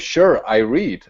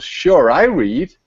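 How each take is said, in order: First: The intonation sounds natural and conversational. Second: The intonation sounds odd and disjointed. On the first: The speaker calls it right. "You you would go" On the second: The speaker calls it wrong. "with that inflection"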